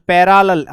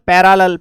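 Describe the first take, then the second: No difference in how they are said.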